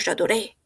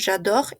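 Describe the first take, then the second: First: The verb ends with a clear "é" vowel sound. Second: The verb ends without a final vowel sound. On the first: The speaker calls it wrong. "y no digo" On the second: The speaker calls it right. "no pronunciamos en el je"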